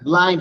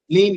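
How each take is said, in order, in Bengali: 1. স্বরধ্বনিটি লম্বা 'eye' ধ্বনি। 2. স্বরধ্বনিটি ছোট 'i' ধ্বনি। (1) "ব্লাইন্ড হবে আইন্ড" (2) "ব্লিন্ড না"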